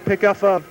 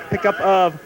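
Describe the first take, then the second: No difference in how they are said.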